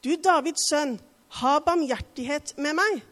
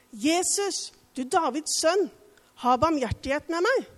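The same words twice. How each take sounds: First: Crying out louder. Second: Higher, louder desperate call for mercy; crying out. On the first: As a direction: shout over those hushing him. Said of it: "ropte bare enda høyere". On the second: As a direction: call out to Jesus across the crowd. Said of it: "Da ropte han". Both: A narrator's reading.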